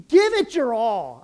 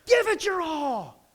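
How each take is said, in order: First: Rally the team with a loud push; loud urging. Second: A slow high plea to the team; high drawn-out plea. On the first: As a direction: give it your all, pushed out loud. Urging players to give everything. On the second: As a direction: give it your all, higher and slow. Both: Real, not acted.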